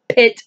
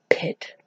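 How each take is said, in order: First: Said in the usual way. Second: "pit" zacht gefluisterd als terzijde; whispered pit. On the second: Real, not acted. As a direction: fluister "pit" voor jezelf. Aside correcting the book's word.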